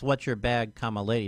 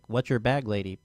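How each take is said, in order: First: A break separates 'bag' from 'lady'. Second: 'Bag lady' runs together as one phrase. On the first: The question is addressed to a lady. The speaker calls it right. "comma lady" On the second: It asks which homeless woman is yours. The speaker calls it wrong. "not like"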